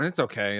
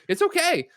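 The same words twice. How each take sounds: First: It sounds resigned and unenthusiastic. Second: It sounds approving and positive. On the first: The thing is merely acceptable. "it's okay is like, oh well, it's fine" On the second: The thing is good. "it's okay is it's good"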